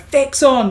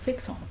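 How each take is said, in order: First: It is said loudly and forcefully. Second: It is said softly and gently.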